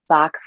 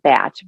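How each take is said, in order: First: The name is said the American way. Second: The name is said the British way. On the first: "we in America say Bach flowers" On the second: "it's pronounced technically Batch"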